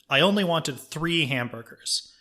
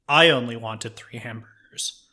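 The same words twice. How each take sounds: First: The stress falls on the word 'wanted'. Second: The stress falls on the word 'I'. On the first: "you stress a different word in the sentence" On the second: "you stress a different word in the sentence"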